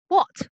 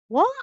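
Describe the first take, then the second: First: It sounds annoyed and irritated. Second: It sounds surprised. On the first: The speaker is irritated. "it's showing sort of annoyance, I guess, um, irritation" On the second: The speaker is surprised. "said in a completely different way, and actually it's showing surprise"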